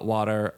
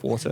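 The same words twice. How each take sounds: First: Water is said with an American accent. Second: Water is said in his own non-American accent.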